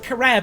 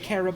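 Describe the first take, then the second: First: The name sounds like the word crab. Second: The name sounds like the word carob. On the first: "it does sound like crab" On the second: "I think it is meant to be carob"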